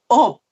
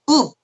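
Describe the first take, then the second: First: The vowel is the open 'eo' sound. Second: The vowel is the unrounded 'eu' sound. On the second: "읍 그런 말 하라면"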